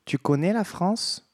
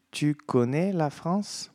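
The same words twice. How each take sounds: First: Rising French question, "Tu connais la France?" said clearly; French question model. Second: "Tu connais la France?" repeated slowly, each word clear; slow it down, "connais" rising; slow French repetition. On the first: Teacher asks students in French, clear model question. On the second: Teacher repeats question slowly for students. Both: Shown as a demonstration. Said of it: "eu pergunto assim".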